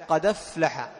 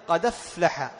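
Both takes have the same delivery.

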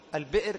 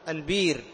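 First: The middle has a glottal stop before the vowel. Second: The glottal stop is replaced by a long 'ee'.

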